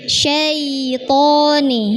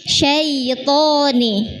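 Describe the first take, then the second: No difference in how they are said.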